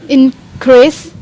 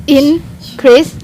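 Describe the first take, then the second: The two takes are said the same way.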